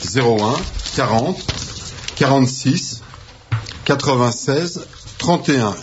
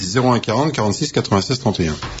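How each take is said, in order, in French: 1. Le numéro est lu à un rythme normal. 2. Le numéro est lu très rapidement.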